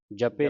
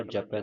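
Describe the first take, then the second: First: ਜਪੇ with a closed "e" ending; wrong final vowel. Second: ਜਪੈ with an open "ai" ending; correct final vowel. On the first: Teacher showing students a misreading, ਜਪੇ ending in closed "e". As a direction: end ਜਪੇ on "ay", japay. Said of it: "ਜਪੇ ਨਹੀਂ ਪੜਨਾ". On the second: Teacher correcting students' reading, ਜਪੈ ending in open "ai". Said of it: "ਦਲਾਵਾਂ ਲੱਗੀਆਂ". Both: Shown as a demonstration.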